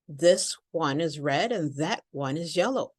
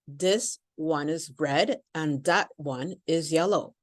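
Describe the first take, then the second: First: The th sounds are pronounced as true th. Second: The th sounds are replaced by other sounds. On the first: The speaker calls it right. "if you change the T H, let me show you what it would sound like" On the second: The speaker calls it wrong. "this is often how a foreign accent sounds to us, simply with the T H"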